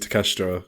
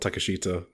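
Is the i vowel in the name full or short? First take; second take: short; full. First: The i vowel is short and clipped. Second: The i vowel is fully pronounced. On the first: The speaker calls it right. "obviously Takeshita" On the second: The speaker calls it wrong. "it's not Takeshita"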